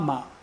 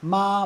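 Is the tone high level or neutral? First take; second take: neutral; high level. First: The syllable is short, light and unstressed. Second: The pitch stays high and level. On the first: "fifth tone" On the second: "first tone"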